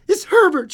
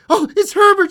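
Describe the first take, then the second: First: High, loud cry of recognition; excited cry. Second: Very high, loud screamed recognition. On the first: Old woman hearing the knock, excited cry. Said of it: "she cried". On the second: Old woman sure her son is knocking, scream. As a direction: scream it at full pitch. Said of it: "she screamed". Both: A narrator's reading.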